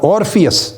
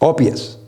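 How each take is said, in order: First: The r sound after the first vowel is pronounced. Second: The r sound after the first vowel is dropped. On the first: "ये जो ऑर्फियस मैं कह रहा हूँ आपको" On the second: "British accent में ... उसमें फिर और को काट देते हैं"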